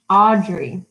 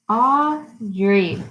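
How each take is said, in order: First: Said in the usual way. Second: "Audrey" slowly split into two beats; syllable by syllable. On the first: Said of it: "you'll remember what a syllable is". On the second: Shown as a demonstration. Teacher showing children the syllables, "Audrey" split in two. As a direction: say "Audrey" as Au, pause, drey. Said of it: "We can clap it out".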